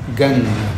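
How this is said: The word begins with a hard g sound.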